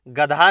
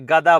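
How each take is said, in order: First: The middle consonant is aspirated, like gadha. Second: The middle consonant is plain, like gada. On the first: The speaker calls it wrong. "गधा नहीं बोला जाता है" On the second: The speaker calls it right. "गदा बोला जाता है"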